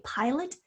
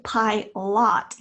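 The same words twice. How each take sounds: First: PILOT with a lazy UH in the second syllable; schwa in PILOT. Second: PILOT with a full AH in the second syllable; short O in PILOT. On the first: Teacher tells fourth graders how we say it, PILOT ending in a schwa. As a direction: say PILOT as PIE-lut, second vowel reduced. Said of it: "we say pilot with a schwa sound". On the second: Teacher shows fourth graders what we don't say, PILOT with a clear short O. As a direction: say PILOT slowly as PIE-LOT, rhyming the end with hot. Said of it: "We don't say pilot like ah". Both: Shown as a demonstration.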